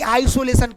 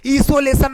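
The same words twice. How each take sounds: First: आइसोलेशन said with an 'aai' at the start, as in 'eye'; आइसोलेशन, opening clearly on 'aai'; correct pronunciation. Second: आइसोलेशन said with a plain 'ee' at the start, as 'isolation'; आइसोलेशन, opening on 'ee' with no 'aai'; wrong pronunciation. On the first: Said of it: "आइसोलेशन नहीं, आइसोलेशन". (आइसोलेशन, शुरुआत में 'आइ' वाला सही उच्चारण) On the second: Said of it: "नहीं". (आइसोलेशन, शुरुआत में 'ई' वाला गलत उच्चारण) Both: Shown as a demonstration.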